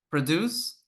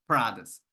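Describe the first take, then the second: First: Verb "produce" with rising -DUCE; stress on second syllable. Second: Noun "produce", low falling after PRO-; stress on first syllable. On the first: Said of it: "This is a verb". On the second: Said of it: "this is a noun". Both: Shown as a demonstration.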